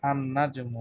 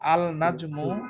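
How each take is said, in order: First: The L merges into a doubled N sound. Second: The L sound of the article is pronounced. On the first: The speaker calls it right. "কি বলতে হবে?" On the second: The speaker calls it wrong. "আল নাজমু যদি কেউ বলে সেটা ভুল হবে"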